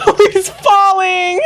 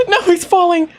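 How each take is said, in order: First: Very high, slow and loud, breaking into a cry; crying-out wail. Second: Gasp, then a high, loud no; alarmed that he's falling, half laughing. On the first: Player wailing as the character falls, high and slow. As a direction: wail it out like you can't bear to watch. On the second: Player gasping as the character falls, high and alarmed. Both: Real, not acted.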